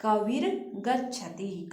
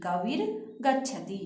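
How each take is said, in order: First: Kabir गच्छति read slowly as one phrase, the र of Kabir running into गच्छति; slow, smooth recitation of Kabir गच्छति; teacher reading Kabir गच्छति slowly and joined. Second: Kabir set apart, a short pause, then गच्छति with a falling end; teacher separates Kabir from गच्छति to show the र; word-by-word split. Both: Shown as a demonstration. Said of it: "यहाँ पे र हो जाएगा".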